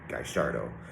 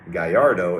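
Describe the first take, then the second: First: It is said with an Argentine Spanish pronunciation. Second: It is said with a Mexican Spanish pronunciation. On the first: "in Argentina they pronounce the double L's as um" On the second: "if you're speaking Mexican Spanish"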